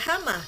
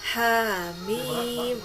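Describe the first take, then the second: First: It is read as two short syllables. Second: It is read as long letter names. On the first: The speaker calls it wrong. "Jangan baca hama" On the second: The speaker calls it right. "tapi yasin, hamim"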